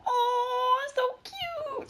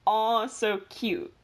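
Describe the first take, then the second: First: Very high squealing coo; cooing over cute animal. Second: Slow, deliberate mock-formal label; slow formal naming. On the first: Retold or imitated. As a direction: gush like seeing a puppy. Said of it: "we both go". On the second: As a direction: spell it out like a scientific name. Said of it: "all under the family".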